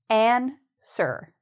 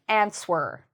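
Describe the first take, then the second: First: No W sound is pronounced in the middle. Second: A W sound is pronounced in the middle. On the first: The speaker calls it right. "the W is actually silent... the correct pronunciation" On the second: The speaker calls it wrong. "people see the W and they pronounce it like answer"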